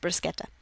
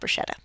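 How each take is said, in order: First: The middle consonant is a hard k sound. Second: The middle consonant is not a k sound. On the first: The speaker calls it right. "the C H before an I in Italian makes a K sound, so it's bruschetta" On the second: The speaker calls it wrong. "not bruschetta"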